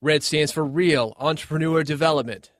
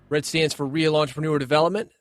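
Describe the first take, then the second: First: It is said in a relaxed, conversational way. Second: It is read quickly, like reading aloud.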